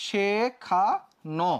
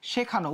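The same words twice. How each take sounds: First: শেখানো very slowly, one syllable at a time; demonstrated pronunciation. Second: Said in the usual way. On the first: Shown as a demonstration. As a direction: sound out শেখানো as she... kha... no with long pauses. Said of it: "উচ্চারণটা কেমন হবে?". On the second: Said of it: "এটা হচ্ছে মূল শব্দ".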